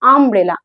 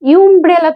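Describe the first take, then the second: First: The word begins with a plain 'uh' vowel. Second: The word begins with a 'yoo' sound. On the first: The speaker calls it right. "আমব্রেলা আ আসছে" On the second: The speaker calls it wrong. "ইউমব্রেলা তো বলি না"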